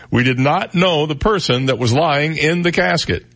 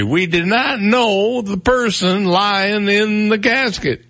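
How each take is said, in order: First: Lightly raised pitch, emphatic quote reading; hint of Bill Cosby. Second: High, drawn-out comic impression; Bill Cosby. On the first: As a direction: read the quote emphatically, only faintly like an impression. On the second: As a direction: stretch every word slowly in a raised, put-on voice. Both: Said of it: "I sound like I'm doing Bill Cosby".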